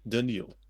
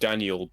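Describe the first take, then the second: First: The name is said with a Russian pronunciation. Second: The name is said with an English pronunciation. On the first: "but slightly different. ... in Russian, it just sounds right to pronounce it like that" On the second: "it's like Daniel"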